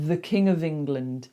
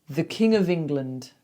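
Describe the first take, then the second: No difference in how they are said.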